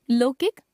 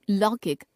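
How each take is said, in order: First: लौकिक as "lokik" with closed o; mispronounced au. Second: Said in the usual way. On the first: Shown as a demonstration. Teacher showing a common error, लौकिक with o for au. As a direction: put "o" for "au" in लौकिक. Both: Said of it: "ओ, औ संबंधी अशुद्धियां".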